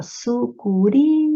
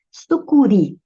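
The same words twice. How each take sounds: First: Sucuri drawn out slowly, su-cu-RI with the stress landing on the final syllable. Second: Said in the usual way. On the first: Shown as a demonstration. Teacher showing students the stress in Sucuri, very slow. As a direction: spell out Sucuri slowly, leaning on the last syllable ri. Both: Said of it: "ó".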